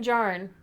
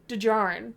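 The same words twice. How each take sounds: First: The name starts without a D sound. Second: The name starts with a subtle D sound. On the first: The speaker calls it wrong. "I didn't pronounce it correctly for you" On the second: The speaker calls it right. "The D sound is there"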